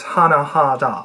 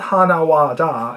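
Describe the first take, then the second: First: The middle syllable is pronounced as ha. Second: The middle syllable is pronounced as wa. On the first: The speaker calls it right. "it's hana ha da" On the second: The speaker calls it wrong. "it is not hana wa da"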